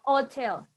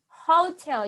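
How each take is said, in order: First: The word starts without an h sound. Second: The word starts with a clear h sound. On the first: The speaker calls it wrong. "no hotel" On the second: The speaker calls it right. "You have to do the H sound"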